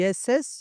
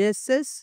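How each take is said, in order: The two takes are said the same way.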